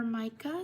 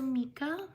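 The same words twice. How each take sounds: First: "Micah" said MY-kuh, rising at the end; alternative pronunciation. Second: "Mika" said MEE-kuh, rising at the end; alternative pronunciation. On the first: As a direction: offer "Micah" with an eye sound in the first syllable. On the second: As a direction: try "Mika" with a long ee in the first syllable. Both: Real, not acted. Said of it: "Sorry if I mispronounced your name".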